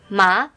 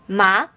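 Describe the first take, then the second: Both takes have the same delivery.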